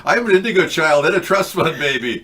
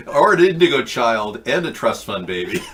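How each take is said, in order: First: Higher, louder laughing boast; laughing brag. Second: Giggling through the words; laughing. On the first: Pretend. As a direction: crack up while bragging. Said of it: "Tell that to people". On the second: Real, not acted. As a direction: laugh as you say it.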